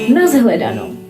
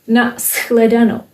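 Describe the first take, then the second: First: The consonant before 'hledanou' is a voiced z. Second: The consonant before 'hledanou' is a voiceless s. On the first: The speaker is from Moravia. "H influences S" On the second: The speaker is from Bohemia. "S influences H, which becomes H"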